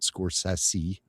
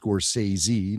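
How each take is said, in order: First: The ending is said with an s sound. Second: The ending is said with a z sound. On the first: The speaker calls it wrong. "not Sassy" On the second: The speaker calls it right.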